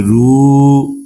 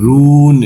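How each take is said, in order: First: "রু," with vowel held one count; one-alif stretch. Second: "রুন," with a long held u; three-alif stretch. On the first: Teacher teaching word by word, short stretch on "রু,". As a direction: lengthen the u of "রু," briefly. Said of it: "এক আলিফ টান নিয়ে পড়তে হবে". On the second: Teacher showing the verse ending, long-drawn "রুন,". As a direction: draw "রুন," out three counts before the n. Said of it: "তিন আলিফটা নিয়ে পড়তে হবে". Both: Shown as a demonstration.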